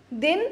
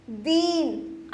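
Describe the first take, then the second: First: दिन with a short, quick i. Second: दीन with a very long stretched ee, slow. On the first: Teacher contrasting vowels for children, short दिन. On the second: Teacher exaggerating long vowel for children, slow दीन. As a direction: drag the ee in दीन out slowly. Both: Shown as a demonstration. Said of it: "अंतर है ना बोलने में".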